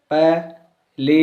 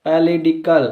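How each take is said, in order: First: पॉलिटिकल drawn out slowly, syllable by syllable; slow syllable demo. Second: Said in the usual way. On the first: Shown as a demonstration. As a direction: stretch पॉलिटिकल out so each syllable can be counted. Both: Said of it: "पॉलिटिकल में देखो".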